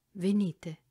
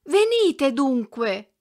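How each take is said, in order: First: Gently. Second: "Venite dunque!" cried out high, loud and drawn out slowly; shout. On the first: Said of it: "gli disse dolcemente". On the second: Girl calling after the retreating hunchback, loud slow cry. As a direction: call after him at full voice. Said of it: "ella gridò". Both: A narrator's reading.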